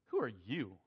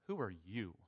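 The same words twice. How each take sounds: First: It is said in a haughty, scornful tone. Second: It is read in a plain, neutral tone.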